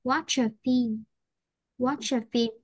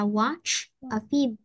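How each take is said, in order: First: "watch a film" linked as "watcha film"; natural linked model; linked speech. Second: "watch a film" each word said separately; slow teacher model; careful form. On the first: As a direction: run the ch into the a. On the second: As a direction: spell out the careful version. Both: Shown as a demonstration. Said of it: "thường mình sẽ nói là".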